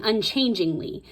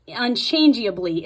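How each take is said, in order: First: "unchangingly" said clearly with its -ingly ending; contrasting word endings. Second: "unchangeably" pronounced firmly with its -eably ending; contrasting word endings. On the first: Teacher showing viewers the word it had been saying, "unchangingly" with a clear -ingly. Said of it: "It has been saying unchangingly". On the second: Teacher showing viewers a different word, "unchangeably" with a distinct -eably. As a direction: mark out "unchangeably", each part clear through -eably. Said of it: "It's a different word". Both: Shown as a demonstration.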